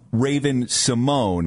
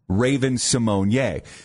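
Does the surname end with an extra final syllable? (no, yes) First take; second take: no; yes. First: The surname ends on the syllable mone. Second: The surname ends with an extra final syllable. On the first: The speaker calls it wrong. "So we've been saying Raven Simone" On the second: The speaker calls it right. "[name] came out and said it's pronounced Simone Ye"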